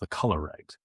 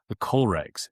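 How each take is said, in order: First: The first part sounds like 'color'. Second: The first part sounds like 'coal'. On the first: The speaker calls it wrong. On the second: The speaker calls it right.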